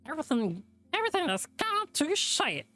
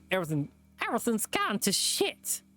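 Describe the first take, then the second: First: It is said in a high-pitched Southern accent. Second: It is said in a plain, ordinary voice.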